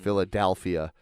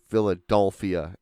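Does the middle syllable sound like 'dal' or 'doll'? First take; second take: dal; doll. First: The middle syllable sounds like 'dal'. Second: The middle syllable sounds like 'doll'. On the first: This is how the speaker says it. "and I'm saying" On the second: This imitates how the other person says it. "I'm hearing from you Philadelphia"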